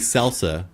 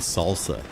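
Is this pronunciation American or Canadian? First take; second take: Canadian; American. First: It is said the Canadian way. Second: It is said the American way. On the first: "Canadians say salsa" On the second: "Americans usually say salsa"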